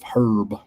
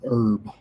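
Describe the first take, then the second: First: The word starts with an audible H sound. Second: The word starts with a vowel; H is silent. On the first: The speaker calls it wrong. "instead of herb" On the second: The speaker calls it right. "That H is silent. So you're you're supposed to uh, pronounce it herb"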